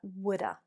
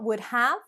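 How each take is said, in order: First: Have is reduced to a weak schwa sound. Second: Have is pronounced in full as a separate word. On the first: The speaker calls it right. "but woulda" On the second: The speaker calls it wrong. "Not would have"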